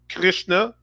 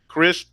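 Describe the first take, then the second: First: The word ends with a final 'a' vowel. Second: The word ends without a final vowel. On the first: The speaker calls it wrong. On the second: The speaker calls it right.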